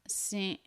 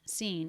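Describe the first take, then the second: First: The vowel ends with a barely started, cut-off n. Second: The word ends with a full, held n sound. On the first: "it's more like seen, S E vowel, the beginning of a nasal sound, but he stops himself" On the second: "instead of seen"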